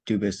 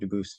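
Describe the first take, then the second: First: The name is said with an English pronunciation. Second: The name is said with a French pronunciation. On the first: "Dubus is the English pronunciation" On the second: "Dubus is the original French"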